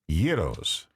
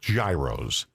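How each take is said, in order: First: The word is pronounced the Greek way. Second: The word is pronounced the anglicized way. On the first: The speaker calls it right. "It's gyros" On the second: The speaker calls it wrong. "it's not gyros"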